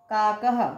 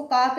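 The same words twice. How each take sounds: First: "काकः" carefully ended on an audible "ha"; visarga sounded. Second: "काक" ending bluntly on k, with no "ha" after it; visarga left off. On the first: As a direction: say "काकः" as two beats, kaa-kaha, with the h heard. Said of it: "क्या बोलेंगे?". ("काकः" के अंत में "ह" साफ़ बोलते हुए) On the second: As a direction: say "काक" quickly, dropping the final h sound. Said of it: "इसको काक नहीं बोलेंगे". ("काक" बिना विसर्ग के, अंत में "ह" नहीं) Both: Shown as a demonstration.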